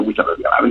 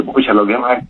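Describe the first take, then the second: First: A soft unvoiced whisper under the breath; muttered to himself. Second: Said in the usual way. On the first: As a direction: grumble "Pucha, lo que más" to yourself in a whisper. (susurrado para sí mismo) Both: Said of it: "le decía entre mí".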